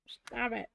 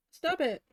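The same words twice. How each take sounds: First: Said in the usual way. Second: High, loud snap at the glue; sharp yelp. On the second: Real, not acted. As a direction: bark it out in pain. Hot glue burning her.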